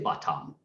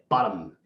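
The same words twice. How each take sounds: First: The second syllable has a full o vowel. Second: The second syllable is a syllabic m. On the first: The speaker calls it wrong. "there is no O there. We don't say bottom" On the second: The speaker calls it right. "We say bottom. And that M actually is like, hey, I need a vowel"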